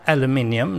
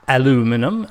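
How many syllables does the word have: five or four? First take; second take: five; four. First: The word is said with five syllables. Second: The word is said with four syllables. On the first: The speaker calls it right. "it's called aluminium" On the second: The speaker calls it wrong. "not aluminum"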